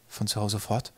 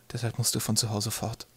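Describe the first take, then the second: First: Soft echo, rising on "fort"; stunned question. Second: Soft, halting statement; quiet hard news. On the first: Twig stunned by his mother's news, questioning softly. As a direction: ask it back quietly, lifting "fort". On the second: Mother telling Twig to leave, quietly. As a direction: get it out quietly after a pause. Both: Acted.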